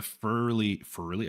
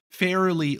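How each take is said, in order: First: "fairly" with its vowel squashed to "furly"; odd pronunciation. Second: Said in the usual way. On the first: Real, not acted. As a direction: slur the vowel of "fairly" into "fur-lee". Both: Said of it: "I don't know why I'm speaking like that".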